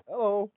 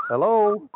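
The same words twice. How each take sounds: First: Said in the usual way. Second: Loud, higher hello into a dead line; calling out loud. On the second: Real, not acted. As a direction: call out to a silent caller. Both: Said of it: "We can't hear you".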